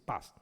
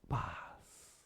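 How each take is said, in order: First: The word is clipped short and dry. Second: The word is drawn out and sustained.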